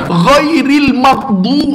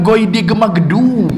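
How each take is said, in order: First: It sounds like ghairil maghdu, without an extra syllable. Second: It sounds like ghaidi gemagedu, with an extra syllable. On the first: The speaker calls it right. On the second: The speaker calls it wrong. "memang bukan ghaidi gemagedu"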